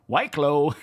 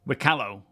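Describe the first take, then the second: First: The name is said not rhyming with piccolo. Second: The name is said to rhyme with piccolo. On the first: "I'm partial to" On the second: "It rhymes with Piccolo"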